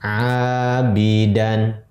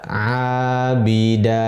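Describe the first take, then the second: First: The word ends with an n sound. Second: The word ends on an open vowel. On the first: The reading continues without stopping. "tanwin, fathah, dan menjadi abidan" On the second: The reader stops on this word. "Ketika kita wakafkan, kita baca abida"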